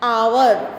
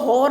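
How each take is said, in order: First: The word starts with a vowel, no h sound. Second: The word starts with an audible h sound. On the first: The speaker calls it right. "ये जो एच है ना ये silent है" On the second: The speaker calls it wrong. "इसको हॉर नहीं बोलेंगे"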